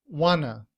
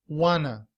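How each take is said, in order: The two takes are said the same way.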